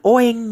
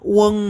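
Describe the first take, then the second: First: It begins with an o vowel. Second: It begins with a u vowel. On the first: The speaker calls it wrong. "bukan oeng" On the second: The speaker calls it right. "ueng ya"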